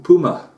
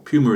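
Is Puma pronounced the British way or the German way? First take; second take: German; British. First: Puma is pronounced with a German accent. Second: Puma is pronounced with a British accent.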